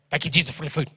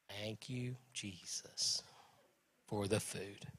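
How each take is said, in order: First: The prayer is said fast. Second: The prayer is said slowly.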